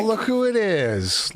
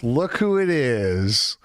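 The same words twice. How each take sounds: First: High, sing-song sarcastic greeting; mock sing-song greeting. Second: Said in the usual way. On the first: Streamer mocking a woman on screen, high sarcastic sing-song. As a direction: sneer it out in a high teasing lilt.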